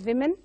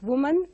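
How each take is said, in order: First: The first syllable sounds like 'wim'. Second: The first syllable sounds like 'woo'. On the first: The speaker calls it right. "rectify this and pronounce it as women" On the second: The speaker calls it wrong. "women is pronounced as woman by many"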